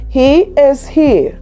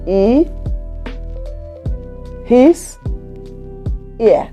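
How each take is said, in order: First: The h sounds are clearly pronounced. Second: The h sounds are dropped or misplaced. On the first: The speaker calls it right. "What the person wants to say is" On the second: The speaker calls it wrong. "And they end up saying"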